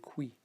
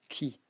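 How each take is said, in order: First: A w-like u sound comes after the k. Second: It is a plain k followed by i. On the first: The speaker calls it wrong. "You don't say qui" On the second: The speaker calls it right. "it should be pronounced key"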